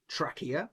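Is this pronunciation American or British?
British. It is said in a British pronunciation.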